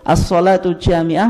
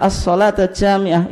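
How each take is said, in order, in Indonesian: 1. Katanya berakhiran vokal 'u' nominatif. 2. Katanya berakhiran vokal 'a' akusatif. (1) "mubtada dan khobar" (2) "Dibaca mansub ya"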